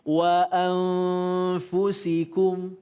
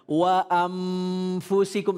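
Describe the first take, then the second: First: The nasal keeps lips apart with air flowing. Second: The nasal is an m with lips closed. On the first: The speaker calls it right. "masih ada aliran udara yang keluar dari mulut" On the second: The speaker calls it wrong.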